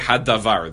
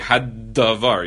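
First: The d sound is short. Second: The d sound is held twice as long.

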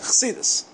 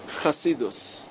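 First: Hasidic form, clipped to a final -s. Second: Yeshivish accent, ending in -us. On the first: The speaker calls it right. "אם אתה באמת רוצה לשכנע אנשים שאת חסיד אמיתית" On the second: The speaker sounds like a Lithuanian yeshiva student. The speaker calls it wrong. "עם המבטא הישיבש"

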